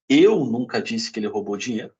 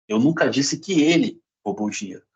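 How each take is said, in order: First: The stress falls on the word eu. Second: The stress falls on the word ele. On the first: Someone else said it. "pode ter sido outra pessoa" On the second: Someone else may have taken it. "Pode ter sido outra pessoa"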